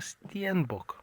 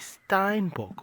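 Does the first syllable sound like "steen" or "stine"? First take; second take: steen; stine. First: The first vowel sounds like "ee". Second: The first vowel sounds like "eye". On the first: "as we call them" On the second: "Some people call them Steinbocks"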